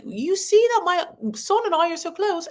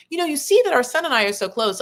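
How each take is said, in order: First: High, lightly put-on accent of Jo, quickly abandoned; a half-hearted stab at the mother-in-law's accent; attempted accent of Jo. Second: Said in the usual way. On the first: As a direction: try Jo's accent and give up on it. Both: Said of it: "I can't do that accent".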